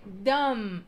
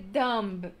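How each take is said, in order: First: Dumb ending on the m, no b; silent b. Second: Dumb with the b sounded, d-u-m-b; b pronounced. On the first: Teacher showing the right way to say dumb. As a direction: close dumb on the m sound. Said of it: "a palavra se fecha no M". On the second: Teacher showing the wrong way to say dumb. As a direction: say dumb ending in a hard b. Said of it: "vocês não vão dizer dumb". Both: Shown as a demonstration.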